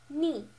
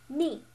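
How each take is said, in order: First: The pitch falls sharply from high to low. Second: The pitch falls sharply from high to low.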